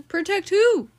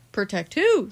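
First: High and louder question; higher lady voice. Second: Said in the usual way. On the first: A narrator's reading. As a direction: redo it as the anxious wife. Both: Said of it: "said Missus, Mister Watson".

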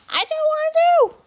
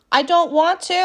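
First: Squealed far higher, whiny. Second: Said in the usual way. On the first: Real, not acted. Second take, high squeal.

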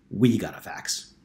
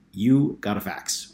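First: We got a fax, slow, correcting herself with we weighted most; stress on we. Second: You got a fax, slow, with You weighted most; stress on you. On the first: Correcting herself to Calvin, stress on we. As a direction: land on we to fix the slip. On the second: Telling him the fax was his, stress on You. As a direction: lean on You, as if it is his alone. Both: A narrator's reading. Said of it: "or rather".

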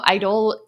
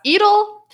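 First: Idol said as "eye-dull", English style; mispronounced Idol. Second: Idol said "ee-dol", French style, pitched up; corrected Idol. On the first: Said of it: "I'm for sure gonna butcher the name". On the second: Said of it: "one of the words I mispronounced". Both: Shown as a demonstration.

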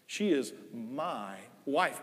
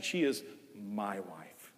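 First: Slow, soft, fond She is my wife; affectionate. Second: Slow, much softer and lower She is my wife; tender. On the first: Husband speaking of his wife Nell, slow and tender. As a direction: linger on she with love. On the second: Husband speaking fondly of wife Nell, slow and soft. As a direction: breathe it out fondly, stress on she. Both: Shown as a demonstration. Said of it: "I say it with affection".

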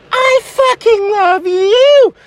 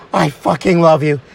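First: High, drawn-out lovestruck squeal; slow, tearful-sounding high declaration; gushing girlfriend. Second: Low, heartfelt declaration of love; earnest low lover's voice; smitten boyfriend. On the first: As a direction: stretch it out in a high, swooning voice. Girlfriend answers his declaration, gushing. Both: Acted.

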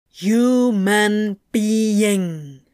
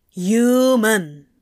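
First: Slow, deliberate syllables, loud; very clearly enunciated. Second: Loud, clear single word; clearly enunciated. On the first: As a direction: spell it out for a machine. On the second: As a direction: say it like to a machine. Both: Acted. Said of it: "as clearly as he could".

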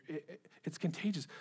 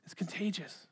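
First: Quietly, as it dawns on you; soft realization. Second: A breathy whisper, savoring the word contagious. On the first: Preacher realizing aloud to the congregation, softly. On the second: Preacher whispering the point to the congregation. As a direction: whisper it like a secret. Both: Acted.

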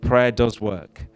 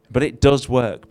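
First: Slow, "Prayer" stressed, falling. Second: "does" pressed hard, then falling; stress on does. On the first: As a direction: land firmly on "Prayer", slowly. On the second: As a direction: lean on "does" to insist. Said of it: "probably feel it's the right thing to say". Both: Shown as a demonstration.

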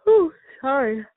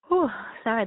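First: Yawning while talking; words stretched by a yawn. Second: Said in the usual way. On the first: Real, not acted. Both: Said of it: "that yawn".

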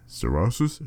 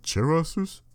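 First: "cerasus" with an S sound first, questioning; soft C pronunciation. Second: "cerasus" with a CH sound first, questioning; CH pronunciation. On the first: Reader guessing at a Latin name, "cerasus" starting with an S. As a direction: try "cerasus" as seh-RAH-sus. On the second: Reader second-guessing a Latin name, "cerasus" starting with CH. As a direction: try "cerasus" as cheh-RAH-sus. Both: Real, not acted. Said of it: "Is it cerasus?".

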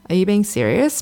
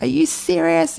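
First: Calm, even question, kept level. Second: High, indignant mock retort; reactive indignant. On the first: Retold or imitated. Her calm new self answering the ex, steady even question. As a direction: ask it steadily without rising to the bait. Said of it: "but in a calm way". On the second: Her old reactive self snapping back at the ex, high indignant retort. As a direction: fire it back in disbelief, reacting. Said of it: "I used to just react and be like".

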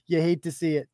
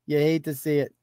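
No difference in how they are said.

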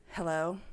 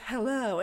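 First: Lightly voiced caller, lower and questioning; low questioning hello of an unknown caller; phone voice. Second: Lightly voiced phone greeting, falling at the end; casual acted hello with a falling tune; young woman answering the phone. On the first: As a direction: answer as the mystery caller, lower, rising at the end. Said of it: "and the phone voice goes". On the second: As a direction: answer the phone as her, easy and open. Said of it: "She says".

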